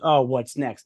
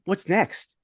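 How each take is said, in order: First: It sounds dreading and fearful. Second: It sounds eager and excited.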